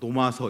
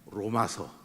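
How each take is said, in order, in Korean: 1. 이 단어는 N 소리로 시작해요. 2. 이 단어는 R 소리로 시작해요. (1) "노마서 이렇게 읽으면 안 돼요" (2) "로마서 이렇게 읽어야 되지"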